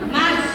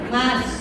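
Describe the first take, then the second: First: It is called at a very high pitch. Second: It is called at a somewhat higher pitch. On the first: This is a third call after being ignored twice. "Yang ketiga langsung tujuh oktav" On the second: This is a second call after being ignored. "nadanya naik setengah oktav"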